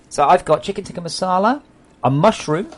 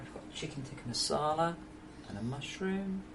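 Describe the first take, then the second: First: Loud, high menu announcement. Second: Softly listing the dishes; quiet presentation. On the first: Streamer announcing dinner to viewers, loud and high. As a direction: call out each dish loudly, ending on a rise. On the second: Streamer showing viewers the dinner, quiet presentation. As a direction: present each dish softly, tune lifting at the ends. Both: Real, not acted.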